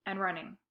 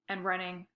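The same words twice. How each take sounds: The two takes are said the same way.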